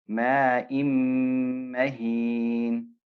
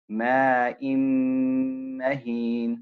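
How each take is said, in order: The two takes are said the same way.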